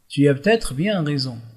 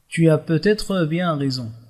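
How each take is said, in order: First: Every word is pronounced in a standard, ordinary way. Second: Every word is articulated carefully and linked fully. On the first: It is an everyday neutral register. "c'est une prononciation normalisée" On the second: It is a formal, elevated register. "On articule bien les mots, on respecte les liaisons"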